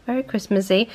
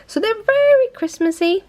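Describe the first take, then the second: First: Said in the usual way. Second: Very Christmassy sung out much higher; excited gush. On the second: Real, not acted. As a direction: squeal it with delight over the nails. Gushing about her Christmas nails.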